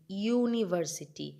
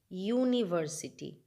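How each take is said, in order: The two takes are said the same way.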